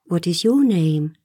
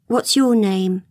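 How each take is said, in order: First: "your" lifted in pitch; stress on your. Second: Said in the usual way. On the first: A narrator's reading. Wendy asks Peter in return, stressing "your". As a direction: turn the question back with weight on "your".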